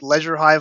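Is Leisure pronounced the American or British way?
British. Leisure is pronounced the British way. "they pronounced it Leisure Hive on screen"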